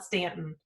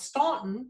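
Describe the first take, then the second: First: The first vowel is a short 'a' sound. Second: The first vowel is an 'aw' sound. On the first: The speaker calls it right. "but they call it Stanton" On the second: The speaker calls it wrong. "I used to mispronounce it actually because I thought it was Staunton because there's a U in there"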